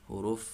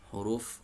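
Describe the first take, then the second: Both takes have the same delivery.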